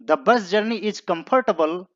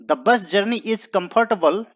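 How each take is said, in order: No difference in how they are said.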